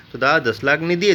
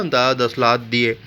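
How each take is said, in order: First: Said in the usual way. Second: Slow, mock stammering "दादा दस लाख दिए" with लाख blurred to "लात"; lightly mocking lisp, "लाख" sounded as "लात". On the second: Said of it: "जो लोग हकलाते तोतले तो वैसे बोलते ना".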